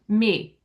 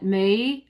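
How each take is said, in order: First: The vowel stays steady without gliding. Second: The vowel glides and bends within the word. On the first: The speaker calls it right. "It's just me" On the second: The speaker calls it wrong. "you bent the word me"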